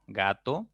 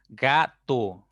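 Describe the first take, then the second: First: Said in the usual way. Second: "Gato" split into ga - to; syllable by syllable. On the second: Shown as a demonstration. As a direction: say "Gato" in two separate beats, ga, to. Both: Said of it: "ya tienen dos sílabas".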